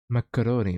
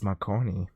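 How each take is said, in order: First: "Macaroni" in four syllables; "Macaroni" with an added middle syllable; misread as macaroni. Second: "Marconi" in three syllables; "Marconi" with no middle "a"; read as Marconi. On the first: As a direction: say "Macaroni" as mac-a-RO-nee. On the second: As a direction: say "Marconi" as mar-CO-nee, softly. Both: Shown as a demonstration. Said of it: "but it says Marconi".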